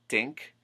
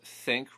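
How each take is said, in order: First: The word begins with a 't' sound. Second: The word begins with a 'th' sound.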